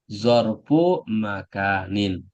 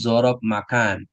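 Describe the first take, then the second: First: Arabic pronunciation, with the endings -u and -in. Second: Indonesian pronunciation, with no Arabic case endings. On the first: The speaker calls it right. "Tapi kalau bahasa Arabnya zorfu makanin" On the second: The speaker calls it wrong. "Kalau bahasa Indonesianya zorob makan"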